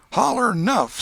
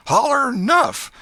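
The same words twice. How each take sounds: First: Put-on high, loud boyish yell; boy's demand. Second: Even higher, louder, slow yell; harder yell. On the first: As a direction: bark it down at the beaten boy. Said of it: "said he". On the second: Acted. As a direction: drag out the demand, pounding on. Tom pounding the boy, repeating.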